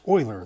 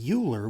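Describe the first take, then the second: First: The name begins with an 'oy' sound. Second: The name begins with a 'you' sound. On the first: The speaker calls it right. "but it's pronounced Euler" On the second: The speaker calls it wrong. "mispronounce this guy's name and say Euler, which is kind of how it looks"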